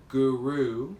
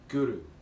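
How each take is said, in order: First: The R is plain, not rolled. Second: The R is rolled with a tongue tap. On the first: The speaker calls it wrong. "which is how most people would first pronounce that word" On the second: The speaker calls it right. "pronounce it with the R rolled a little bit"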